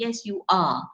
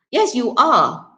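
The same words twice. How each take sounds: First: "Yes, you are" ending on a strong are; strong form are. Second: "Yes, you are" with a strong, full are; stress on are. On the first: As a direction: finish firmly on are. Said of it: "therefore you would use the strong form". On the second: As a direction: land firmly on are, slowly. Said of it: "emphasize on the fact that the person is lazy". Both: Shown as a demonstration.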